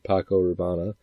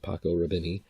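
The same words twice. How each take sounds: First: The second word is said as Rabanne. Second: The second word is said as Rubini. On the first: The speaker calls it right. "it's supposed to be Paco Rabanne" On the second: The speaker calls it wrong. "he purposely mispronounces it"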